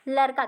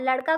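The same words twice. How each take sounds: First: लड़का mispronounced as "larka"; lisping mispronunciation. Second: Said in the usual way. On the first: Shown as a demonstration. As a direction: turn the ड़ of लड़का into a plain r. (लड़का को "लरका" जैसा अशुद्ध बोलें) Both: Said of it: "ड़ को र में परिवर्तित".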